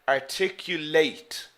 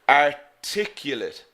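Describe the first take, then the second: First: The stress is on the last syllable. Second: The stress is on the second syllable. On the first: It is used as a verb. "The stress is here in the last syllable" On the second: It is used as an adjective. "So the stress is here in the second syllable"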